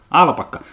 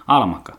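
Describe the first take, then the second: First: Alpakka said properly with a clear p and long kk; corrected word. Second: Almakka said with an m where the p belongs; slip of the tongue. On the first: Vlogger settling on the right word after a slip, corrected Alpakka. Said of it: "Eikö alpakka ole se almanakka?". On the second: Vlogger stumbling over the animal's name, mispronounced Almakka. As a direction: say Almakka as a mistaken, muddled version of the animal's name. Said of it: "Eikö alpakka?". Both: Real, not acted.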